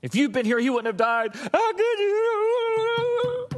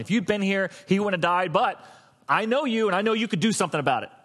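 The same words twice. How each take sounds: First: High-pitched mock wailing, last words drawn out; emotional basket case. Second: Measured, insistent appeal; intellectual reasoning. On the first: Mary blaming Jesus for her brother's death, hammed-up emotional wail. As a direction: break into a hammed-up wail of reproach. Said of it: "in a totally emotional basket case". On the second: Acted. Martha reasoning with Jesus after her brother died, intellectual appeal. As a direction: make a reasoned case, only lightly stirred. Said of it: "Martha was on a very intellectual".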